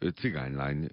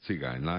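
First: It is said as one word, one stress. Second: It is said as two words, two stresses. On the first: It is treated as a single compound noun. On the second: It is treated as an adjective plus a noun.

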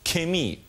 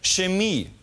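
First: It begins with a hard k sound. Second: It begins with a soft, hissing ch sound.

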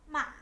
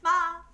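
First: The syllable has the hỏi tone. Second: The syllable has a level, fairly high tone. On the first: "Dấu hỏi thì" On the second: "Dấu ngang là không dấu, nó hơi cao lên"

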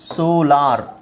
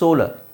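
First: The last syllable has a full 'ar' vowel. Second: The last syllable has a weak schwa vowel. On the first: The speaker calls it wrong. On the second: The speaker calls it right.

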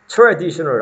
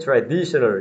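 First: The stress is not on the second syllable. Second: The stress is on the second syllable. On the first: The speaker calls it wrong. "traditional 아닙니다" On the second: The speaker calls it right. "강세 두 번째 있습니다. 강세 traditional 이렇게 되는 겁니다"

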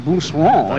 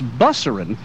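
First: The name is said with a French pronunciation. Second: The name is said with an English pronunciation. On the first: This is the original form of the name. The speaker calls it right. "which is actually Bousseron, if it were pronounced correctly" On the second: This is how the name is said locally. The speaker calls it wrong. "one of the most popular streets down here is Busserin"

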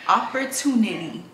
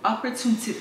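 First: The word is said slowly and carefully. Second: The word is said at normal speed.

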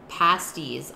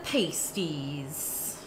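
First: The first vowel is a short A like 'apple'. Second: The first vowel is a long A like 'paste'. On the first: "with a short A like apple" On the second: "I've been saying it wrong the whole time"

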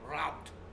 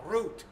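First: The vowel sounds like 'ow' in cow. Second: The vowel sounds like 'oo' in boot. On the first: The speaker calls it right. "pero se pronuncia route" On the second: The speaker calls it wrong. "Mucha gente dice root"

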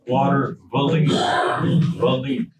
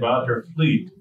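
First: It is said with an inserted extra vowel. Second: It is said without an inserted extra vowel. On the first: "We say Watervliet" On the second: "We don't say Watervliet"

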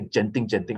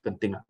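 First: Genting is pronounced the foreign investors' way. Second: Genting is pronounced the local way. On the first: This is how foreign investors say the name. "They say Genting" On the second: This is how locals say the name. "they don't pronounce it at Genting"

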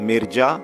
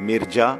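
Both takes have the same delivery.

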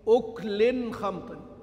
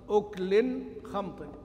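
The two takes are said the same way.

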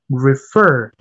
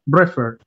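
First: The stress is on the second syllable. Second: The stress is on the first syllable. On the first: The speaker calls it right. "the pronunciation is refer" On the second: The speaker calls it wrong. "not refer"

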